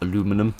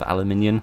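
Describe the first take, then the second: First: It is said with an American pronunciation. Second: It is said with a British pronunciation.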